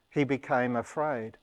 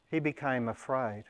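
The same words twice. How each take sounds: The two takes are said the same way.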